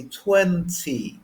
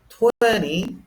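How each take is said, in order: First: "twenty" with a crisp, full T; British "twenty", slow with the T clearly released. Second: "twenty" as "twenny", T dropped; American "twenty", N running into the final vowel. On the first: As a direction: hit the second T in "twenty". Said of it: "They pronounce the T a lot". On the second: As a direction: swallow the T in "twenty". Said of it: "which is very American". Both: Shown as a demonstration.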